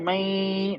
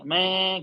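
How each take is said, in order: First: The sound is carried through the nose. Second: The sound does not go through the nose. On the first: The speaker calls it right. "नाक में आवाज ले जाए" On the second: The speaker calls it wrong. "नाक में नहीं लगे"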